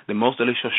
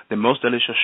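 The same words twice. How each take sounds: The two takes are said the same way.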